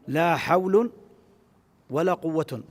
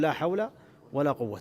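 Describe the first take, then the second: First: Both nouns end with an -un sound. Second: Neither noun ends with an -n sound. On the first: The particle governs neither noun. "بالإهمال في الأمرين" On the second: The particle governs both nouns. "فيجوز لك أن تعملها"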